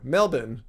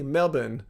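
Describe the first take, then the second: First: It is said with an American accent. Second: It is said with an Australian accent. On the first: "an American would might say Melbourne" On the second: "say it in the Australian um, manner"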